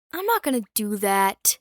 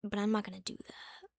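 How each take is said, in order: First: Louder, firm refusal. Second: Whispered to herself. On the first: Repeating her decision to viewers, loud and firm. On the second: Deciding not to approach her, a whisper. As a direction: breathe it out in a whisper. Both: Shown as a demonstration.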